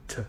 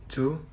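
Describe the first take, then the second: First: "t" as a very short "to" with a schwa; reduced weak form. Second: Said in the usual way. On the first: Shown as a demonstration. Learner presenting how "to" reduces, weak form. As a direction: cut "to" down to a quick "tuh". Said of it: "often convert to the a sound". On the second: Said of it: "the vowel sound in the word often convert".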